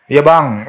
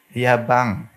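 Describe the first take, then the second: First: Louder, blunt "Iya, Bang"; too harsh. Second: Gentle. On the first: Congregation answers too harshly, loud blunt reply. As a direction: bark the reply instead of softening it. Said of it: "Eh, beda". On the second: Preacher demonstrating a wife's gentle reply. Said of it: "harus halus". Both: Shown as a demonstration.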